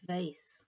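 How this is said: It rhymes with lace. "in American rhymes with lace"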